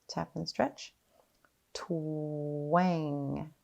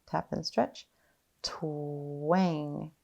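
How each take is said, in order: No difference in how they are said.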